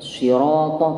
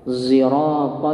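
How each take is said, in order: First: It begins with an emphatic s sound. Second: It begins with an s blended with z. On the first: "pakai shad" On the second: "pakai shad campur zai"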